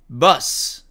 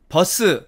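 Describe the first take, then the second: First: It is said with English pronunciation. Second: It is said with Korean loanword pronunciation. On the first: "영어로는" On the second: "외래어 발음으로는"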